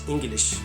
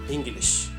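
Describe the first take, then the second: The two takes are said the same way.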